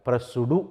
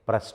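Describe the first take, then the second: First: The ending adds an extra syllable. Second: The ending is a short t sound. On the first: The speaker calls it wrong. "ప్రెస్సుడు అనకూడదు" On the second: The speaker calls it right. "ఇక్కడ కూడా ఈడీని టీగా పలకాలి"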